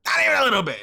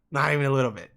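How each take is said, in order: First: "Not even a little bit" higher and louder, punching "Not"; emphatic denial. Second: Said in the usual way. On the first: Retold or imitated. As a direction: hammer "Not" as you insist. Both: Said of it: "repeated louder".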